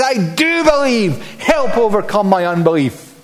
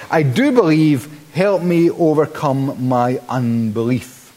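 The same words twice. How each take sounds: First: Desperate shriek. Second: Calm self-help reading. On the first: Father shrieks to Jesus for his son, desperate and pitched up. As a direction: cry it out like a panicked father, much higher. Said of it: "So the father is shrieking". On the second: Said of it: "reads ... like a verse from a self-help manual". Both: Retold or imitated.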